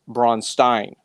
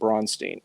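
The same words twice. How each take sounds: First: It is said with an Austrian German accent. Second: It is said in a plain, unaccented way. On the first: "the Austrian Bronstein" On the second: "that's pronunciation Bronstein"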